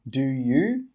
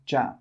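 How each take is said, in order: First: Both words are said fully and separately. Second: The words blend into one short syllable. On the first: The speaker calls it wrong. "We don't say do you" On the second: The speaker calls it right. "we say ja"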